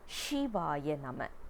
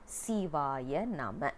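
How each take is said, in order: First: The first word begins with an sh sound. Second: The first word begins with an s sound. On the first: It is just a name, not a mantra. The speaker calls it wrong. "we don't pronounce it as Shivaya Nama" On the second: It works as a mantra. The speaker calls it right. "we need to say as Nama Sivaya or Sivaya Nama"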